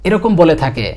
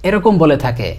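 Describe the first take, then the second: No difference in how they are said.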